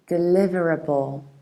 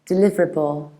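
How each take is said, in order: First: Every weak vowel is pronounced in full. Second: One weak vowel is dropped from the word. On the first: It sounds very proper. "if you want to be very proper, with these extra little schwas" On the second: It sounds casual and normal. "in normal, casual, fast speech, we would skip this schwa"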